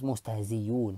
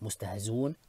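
First: A y sound replaces the glottal stop. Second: The glottal stop is dropped entirely. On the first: "ibdal to a ya" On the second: "وجه الحذف"

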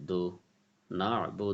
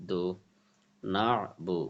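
No difference in how they are said.

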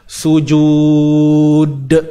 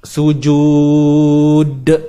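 The two takes are said the same way.

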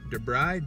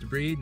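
First: The word sounds like 'the bride'. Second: The word does not sound like 'the bride'. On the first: The speaker calls it wrong. "not debride. Debride's the one you marry" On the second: The speaker calls it right. "pronounced debride"

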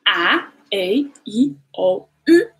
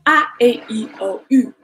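First: The vowels are said at an unhurried pace. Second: The vowels are said quickly in succession.

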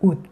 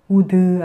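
First: The final d is unreleased with no vowel. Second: The final d is released with a vowel. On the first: The speaker calls it right. "짧게요" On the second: The speaker calls it wrong. "우드 아니고요"

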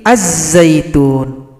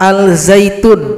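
First: The l merges into a doubled z sound. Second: A clear l sound is heard before z. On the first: The speaker calls it right. "tapi az-zaitun. Lamnya enggak boleh dibaca" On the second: The speaker calls it wrong. "bukan al-zaitun"

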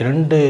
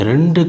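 The two takes are said the same way.

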